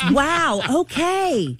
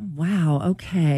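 First: It sounds supportive and encouraging. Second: It sounds let down and disappointed.

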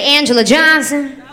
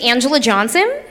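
First: It is said like a black girl would. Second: It is said like a white girl would.

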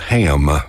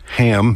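First: The vowel is drawn out into a triphthong. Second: The vowel is short and plain.

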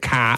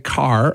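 First: The final R is silent, Boston style. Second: The final R is pronounced, American style.

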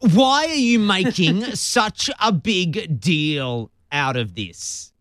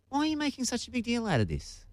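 First: It sounds irritated and dismissive. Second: It sounds curious and genuinely puzzled.

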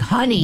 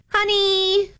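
First: It is called out in an angry tone. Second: It is called out sweetly, not angrily.

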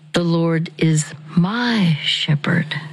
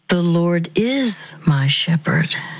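First: The stress is on "my". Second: The stress is on "is".

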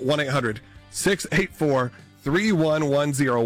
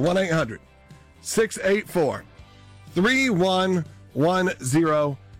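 First: The number is said at normal quick speed. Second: The number is said slowly and deliberately.

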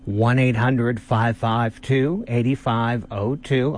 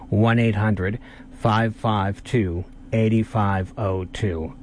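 First: The number is said at normal speed. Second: The number is said more slowly.

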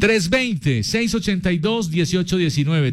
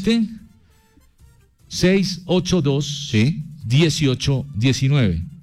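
First: The number is said at normal speed. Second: The number is said slowly.

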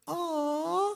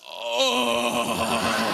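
First: It is said in a soft, clear voice. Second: It is said in a coarse, rough voice.

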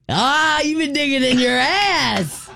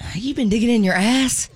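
First: It sounds excited. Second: It sounds disappointed.

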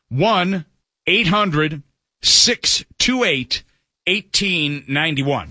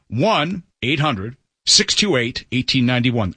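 First: The number is said at a slow pace. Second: The number is said at a quick pace.

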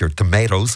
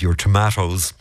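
First: Tomatoes is said in an American accent. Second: Tomatoes is said in an Irish accent.

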